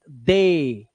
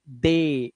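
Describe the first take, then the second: First: The word ends with an 'ay' vowel. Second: The same.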